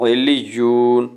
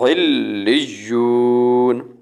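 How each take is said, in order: First: The consonants are said short and single. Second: The consonants are held and doubled. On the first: The speaker calls it wrong. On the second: The speaker calls it right.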